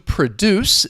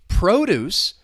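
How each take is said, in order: First: The stress is on the second syllable. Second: The stress is on the first syllable. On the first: It is a verb meaning to make something. "the stress is on that second syllable" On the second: It is a noun meaning food that is grown. "The stress is on the first syllable"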